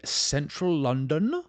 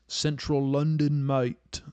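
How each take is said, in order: First: Badly faked English accent, voice rising; horrible English accent. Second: Put-on slow, higher-pitched English accent; put-on English accent, dragged out; slightly better English accent. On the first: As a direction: botch an English accent on London. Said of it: "That was a horrible English accent". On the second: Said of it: "I guess, a little better".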